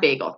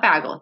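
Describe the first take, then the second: First: "Bagel" with a long A, as BAY-gul; correct bagel. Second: "bagel" with a short A, as BAG-ul; wrong bagel. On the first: Friend showing the right way, "Bagel" as BAY-gul. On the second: Friend showing the wrong way, "bagel" as BAG-ul. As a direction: say "bagel" to rhyme with haggle. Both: Shown as a demonstration. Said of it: "Bagel, not bagel".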